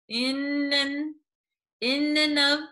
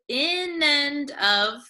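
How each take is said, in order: First: The word 'and' is reduced to an N sound. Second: The word 'and' is pronounced in full. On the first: "it's gonna become in and of itself ... and becomes like almost just an N sound" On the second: "instead of in and of"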